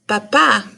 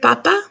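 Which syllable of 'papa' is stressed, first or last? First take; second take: last; first. First: The stress falls on the last syllable. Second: The stress falls on the first syllable. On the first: It means father. "is accented with the letter A to mean father" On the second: It means potato. "it doesn't have an accent"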